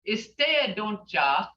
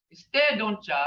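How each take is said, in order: First: "Instead," then a short pause before "don't ya"; split phrase. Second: Said in the usual way. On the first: Shown as a demonstration. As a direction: set "Instead" and "don't ya" apart as two pieces. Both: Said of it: "look how it's said".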